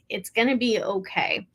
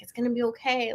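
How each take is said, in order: First: It sounds like genuine, heartfelt reassurance. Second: It sounds like empty, soothing reassurance.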